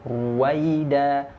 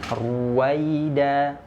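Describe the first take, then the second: No difference in how they are said.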